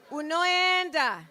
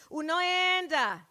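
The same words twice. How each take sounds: The two takes are said the same way.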